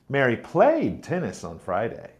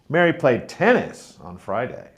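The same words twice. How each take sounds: First: The word played is stressed. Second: The word tennis is stressed. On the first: She played rather than watched. "Mary played tennis, not watched" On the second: It was this sport and not another. "Mary played tennis on Friday, not football"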